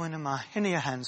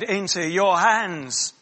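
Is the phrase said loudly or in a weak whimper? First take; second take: whimper; loud. First: It is said weakly, like a whimper. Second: It is said loudly and forcefully. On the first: The speaker is fading out helplessly. The speaker calls it wrong. "Was it like that?" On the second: The speaker gives up life on purpose. The speaker calls it right. "With a loud voice"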